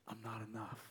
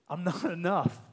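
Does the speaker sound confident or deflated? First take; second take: deflated; confident. First: It is said in a deflated, withdrawn, low-energy way. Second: It is said in a confident, projected, courageous way. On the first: The speaker feels defeated by their own inadequacy. The speaker calls it wrong. "The unhealthy one goes, ... that turning inward, and it's shutting you down, and it's sapping your energy" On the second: The speaker trusts another despite their own inadequacy. The speaker calls it right. "He's going with courage. He's going with chest up. He's going with voice projected"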